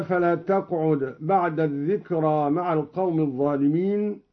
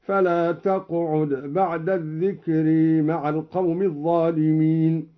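First: Said in the usual way. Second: الذكر ending in a long "ee/ay", "adh-dhikre"; imala. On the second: Shown as a demonstration. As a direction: tilt the final a of الذكر towards e. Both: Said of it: "أمال الذكرى".

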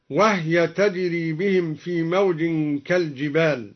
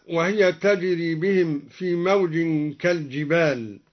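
First: وهي with the ha silent, "wahya"; Duri reading. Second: Said in the usual way. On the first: Shown as a demonstration. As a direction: say وهي as "وهْيَ", ha without a vowel. (وهي بإسكان الهاء) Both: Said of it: "قرأ الدوري بإسكان الهاء".

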